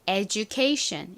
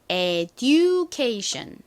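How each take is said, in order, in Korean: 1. 가운데 자음은 j 같은 소리입니다. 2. 가운데 자음은 그냥 d 소리입니다. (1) "실제 영어식 발음으로는 education 이렇게 살짝 지읒 소리가 들어간 발음" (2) "한국식으로는 education 이라고 읽고"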